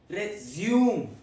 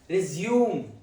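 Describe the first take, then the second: First: It is pronounced the way the verb is. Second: The same.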